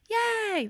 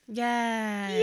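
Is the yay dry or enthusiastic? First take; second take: enthusiastic; dry. First: It sounds lively and enthusiastic. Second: It sounds dry and flat.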